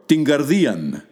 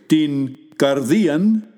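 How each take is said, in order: First: Words run together, n and k become ng. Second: Two separate words with a plain n and k. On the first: "joined together to produce a sound ng" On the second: "you can pronounce the words separately"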